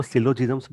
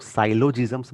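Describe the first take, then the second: First: Syllogisms said with a short "si" at the start, SIL-o-jiz-ums; one common pronunciation. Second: Syllogisms said with "sigh" at the start, SAI-lo-jiz-ums; other pronunciation. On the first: Teacher showing students one way to say syllogisms, sil-lo-jizms. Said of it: "कुछ लोग इसको syllogisms बोलते हैं". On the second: Teacher showing students the other way to say syllogisms, sai-lo-jizms. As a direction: say syllogisms as sai-lo-jizms with a long eye sound. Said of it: "कुछ लोग syllogisms बोलते हैं". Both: Shown as a demonstration.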